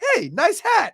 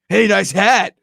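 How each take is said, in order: First: It sounds sincere and friendly. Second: It sounds smug and condescending.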